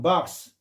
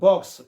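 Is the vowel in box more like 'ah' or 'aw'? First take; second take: ah; aw. First: The vowel is an open 'ah' sound. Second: The vowel is a rounded 'aw' sound. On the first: "미국식은 박스" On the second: "영국식은 box"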